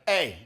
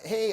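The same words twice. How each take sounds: First: The greeting sounds cocky and sassy. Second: The greeting sounds meek and eager to please. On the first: The speaker feels confident and superior. The speaker calls it right. "It's just very sassy" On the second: The speaker is seeking approval and rapport. The speaker calls it wrong. "this kind of like meek, trying for rapport tonality"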